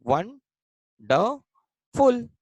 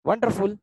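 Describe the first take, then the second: First: वन, ड, फुल as separate syllables with pauses, stepping up in pitch. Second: Said in the usual way. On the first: Shown as a demonstration. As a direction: break wonderful into वन... ड... फुल, each piece higher. Teacher breaks example word apart. (वन, ड, फुल को रुक-रुककर, चढ़ते सुर में बोलें)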